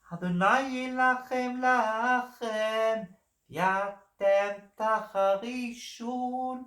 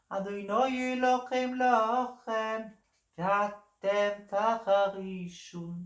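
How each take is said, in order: First: Slow, high sung line in Sephardi Hebrew pronunciation. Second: Slow, high sung line in Ashkenazi Hebrew pronunciation. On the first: Singer showing listeners the Sephardi Hebrew dialect, slow and sung. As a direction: sing it drawn out with a Sephardi Hebrew accent. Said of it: "the first one was a Sephardi Israeli dialect". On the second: Singer showing listeners the Ashkenazi Hebrew dialect, slow and sung. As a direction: sing it drawn out with an Ashkenazi Hebrew accent. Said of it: "the second was the, um, Ashkenazi one". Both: Shown as a demonstration.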